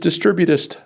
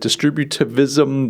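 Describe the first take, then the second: First: The word has no V sound inside. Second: The word has an added V sound inside. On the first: The speaker calls it right. "But it's distributist thinking" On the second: The speaker calls it wrong. "I was like throwing a V in there"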